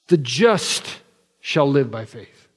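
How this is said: The stress is on "the just".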